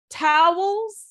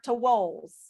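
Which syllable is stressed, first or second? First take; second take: first; second. First: The stress is on the first syllable. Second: The stress is on the second syllable.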